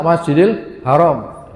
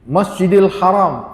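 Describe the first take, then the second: First: Haram with a plain h, a bit fast; everyday Haram. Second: Haram with a throaty Arabic ḥ; correct Haram. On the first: Retold or imitated. Teacher imitates people saying Haram carelessly. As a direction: say Haram the loose Indonesian way. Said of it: "orang ngomongnya". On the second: Shown as a demonstration. Teacher shows the correct Masjidil Haram to the congregation. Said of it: "tulisannya ha".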